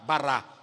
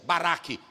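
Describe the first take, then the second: First: The word ends on a vowel, no k. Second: The word ends with a k sound. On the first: The speaker calls it right. "a gente diz bará" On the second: The speaker calls it wrong. "tem um caf final, mas a gente não pronuncia. Baraque, não é baraque"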